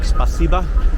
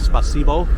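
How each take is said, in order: First: The final vowel sounds like 'ah'. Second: The final vowel sounds like 'oh'. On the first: This is how locals actually say it. "They say A, like spasiba" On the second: This follows the spelling. "instead of spasibo, how it's spelled"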